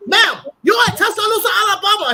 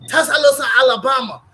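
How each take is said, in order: First: High, loud imitated shout of "Tuscaloosa, Alabama"; mock shout. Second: A mock shout of "Tuscaloosa, Alabama", louder; retold loud answer. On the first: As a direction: belt it out like the waiter yelling. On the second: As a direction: call out the place name loudly, imitating the waiter. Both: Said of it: "He said".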